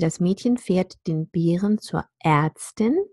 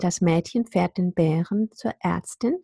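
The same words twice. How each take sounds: First: The ä vowels get no distinct ä sound. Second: The ä vowels get a distinct ä sound. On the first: "I usually say" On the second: "you could say, ... that fits with the Ä practice"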